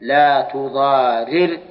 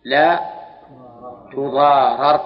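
First: تضارر drawn out slowly as tuḍārir, kasra on the first ra; active reading spelled out. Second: تضارر said as tuḍārar, fatha on the first ra; passive reading spelled out. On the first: Teacher shows students the active form, slow and deliberate. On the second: Teacher shows students the passive form, firm and clear. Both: Shown as a demonstration. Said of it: "صار فك الإدغام هكذا".

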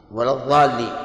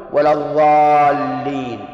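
First: Said in the usual way. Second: الضالين with dh instead of d, slow and sung; wrong letter demo. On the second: Shown as a demonstration. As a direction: chant الضالين slowly with a dh. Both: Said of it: "إبدال الضاد ضاء".

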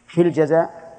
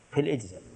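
First: الجزاء punched higher and louder; stress on الجزاء. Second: Said in the usual way. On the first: Shown as a demonstration. Teacher pointing students to the other term, with firm stress. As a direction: hit the word الجزاء hard. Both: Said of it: "فرق".

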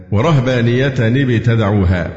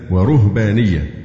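First: ورهبانية read with the rā' in fatha, wa-rahbāniyya; standard fatha reading. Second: ورهبانية read with the rā' in damma, wa-ruhbāniyya; ruhbaniyya with damma. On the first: Teacher reciting the usual reading, ورهبانية with fatha. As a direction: say ورهبانية with an a after the r, slowly. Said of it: "كأنها نسبت إلى الرهبان". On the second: Teacher showing the variant reading, ورهبانية with damma. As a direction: say ورهبانية with a u after the r, slowly. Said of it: "بالضم". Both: Shown as a demonstration.

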